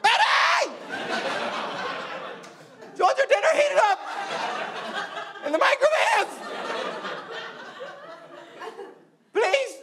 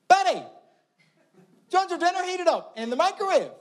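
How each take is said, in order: First: It is called extremely loudly. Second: It is called a little louder.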